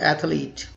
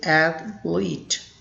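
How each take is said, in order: First: The word is said with three syllables. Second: The word is said with two syllables. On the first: The speaker calls it wrong. "People commonly mispronounce this word as" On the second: The speaker calls it right. "the correct pronunciation is athlete. There are two syllables"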